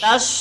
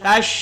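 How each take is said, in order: First: The word ends with a plain 's' sound. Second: The word ends with an 'sh' sound. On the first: The speaker calls it wrong. "tash bukan tas" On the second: The speaker calls it right. "tapi tash"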